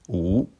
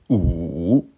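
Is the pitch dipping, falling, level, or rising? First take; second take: rising; dipping. First: The pitch rises from middle to high. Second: The pitch dips low, then rises. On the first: "Deuxième ton" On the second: "Troisième ton"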